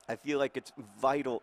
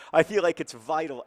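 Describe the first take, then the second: First: Said in the usual way. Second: "vital" pushed louder and higher, insisting; stressed, insistent. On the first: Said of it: "I feel like it's vital, absolutely vital". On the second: Shown as a demonstration. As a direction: repeat "I feel like it's vital" with heavy emphasis on I. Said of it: "That's a lot".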